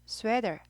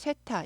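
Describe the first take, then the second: First: It is said with English-style pronunciation. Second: It is said with Korean-style pronunciation. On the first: "얘는 sweater" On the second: "한국말 쇠타"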